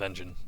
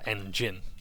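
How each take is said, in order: First: The second syllable 'gin' is not stressed. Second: The second syllable 'gin' is stressed. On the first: "whereas with engine there is none" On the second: "I put the emphasis on gin"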